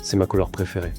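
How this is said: The pitch goes down at the end. The speaker comes across as intense and confident. The speaker calls it right. "la fin de tes phrases doit finir vers le bas"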